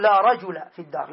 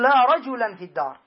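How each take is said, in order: First: No final n on رجل, just "rajula"; رجل with a bare fatha ending; without tanween. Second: رجلا with nunation, "rajulan"; with tanween. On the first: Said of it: "بدون تنوين". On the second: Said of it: "فلا تقول". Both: Shown as a demonstration.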